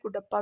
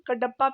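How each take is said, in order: First: The first syllable has a 'u' vowel. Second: The first syllable has an 'a' vowel. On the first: "कुडप्पा भी बोलते हैं" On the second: "कडप्पा भी बोलते हैं"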